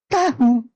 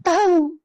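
First: "Tahu" as written, ta-hu with a clear h; two separate syllables in "Tahu", h sounded; spelling pronunciation. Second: "tahu" said as tau, without the h; spoken pronunciation. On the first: Answering what is written, spelling pronunciation. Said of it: "Tulisannya apa?". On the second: Answering how it is pronounced, spoken pronunciation. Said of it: "Tapi mengucapkannya". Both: Shown as a demonstration.

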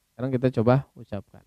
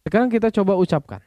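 First: Said in the usual way. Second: Plain. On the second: Shown as a demonstration.

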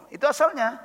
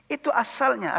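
First: Asalnya leaned on, falling at the end; stress on asalnya. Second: Itu hit first, asalnya trailing off; stress on itu. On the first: Teacher stressing asalnya to the class, falling finish. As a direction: press the word asalnya, let it drop. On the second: Teacher stressing itu to the class, asalnya trailing. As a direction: punch itu, let asalnya fade. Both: Shown as a demonstration.

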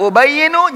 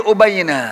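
First: "Ubayyinu" ending in a clear -nu. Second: "ubayyina" ending in a clear -na. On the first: Teacher contrasts the case endings, "Ubayyinu" closing on -nu. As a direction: sound the final dhamma of "Ubayyinu". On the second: Teacher shows the changed case ending, "ubayyina" closing on -na. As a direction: sound the final fathah of "ubayyina". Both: Shown as a demonstration.

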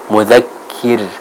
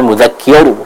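First: Mudzakir with a light final R; softer, careful mudzakir ending in clear, thin "kir". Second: Mudzakir with a heavy final R; thick-R mudzakir; wrongly thickened ra. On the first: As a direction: correct model, light R in mudzakir. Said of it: "tipis, ya". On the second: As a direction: show the mistake, mudzakir ending dark like "kior". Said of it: "bukan mudzakir". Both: Shown as a demonstration.

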